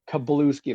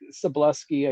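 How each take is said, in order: First: The name begins with a hard K sound. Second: The name begins with a soft S sound. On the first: The speaker calls it right. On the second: The speaker calls it wrong.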